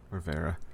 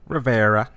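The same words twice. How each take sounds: First: It is said plainly, without an Italian accent. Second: It is said with an exaggerated Italian accent.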